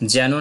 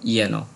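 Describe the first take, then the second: First: The word begins with a j sound. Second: The word begins with a y sound. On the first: The speaker calls it wrong. "যেন না বলে" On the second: The speaker calls it right. "বলবো ইয়েন"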